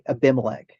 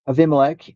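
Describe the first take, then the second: First: The second consonant is a B sound. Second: The second consonant is a V sound. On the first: The speaker calls it wrong. "if you're looking at like an English version, it would say Abimelech" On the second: The speaker calls it right. "correct pronunciation ... V like a V sound"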